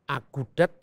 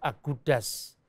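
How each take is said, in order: First: The word ends with a t sound. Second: The word ends with an s sound.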